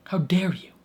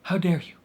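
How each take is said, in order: First: Whispered, hammed-up wounded indignation; mock whisper. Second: Higher and louder, hammed-up indignant cry; mock outrage. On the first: Fan repeating her complaint to the show as a mock whisper. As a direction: hiss it in betrayed disbelief. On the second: Fan berating the show for ending there, mock loud. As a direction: scold the show like it wronged you personally. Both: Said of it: "And it's like".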